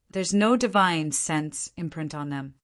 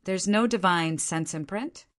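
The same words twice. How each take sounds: First: Said in the usual way. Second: Rising question on imprint; questioning echo. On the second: A narrator's reading. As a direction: echo it back, lifting imprint at the end. Echoes the answer as a question.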